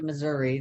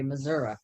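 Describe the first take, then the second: First: The word ends with an ee sound. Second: The word ends with an uh sound. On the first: This is how outsiders say the name. "never say Missouri" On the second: This is how people from the state say the name. "They say Missouri, which I do"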